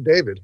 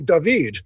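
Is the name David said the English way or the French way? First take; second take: English; French. First: The name is said with an English pronunciation. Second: The name is said with a French pronunciation. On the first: "They don't say David" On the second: "I go to France and they say David"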